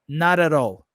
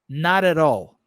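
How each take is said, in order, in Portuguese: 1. Tem sotaque americano, com sons de t parecidos com r. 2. Tem sotaque americano, com sons de t parecidos com r.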